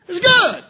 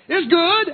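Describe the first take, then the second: First: It is said with exclamatory excitement. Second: It is said with a final falling close.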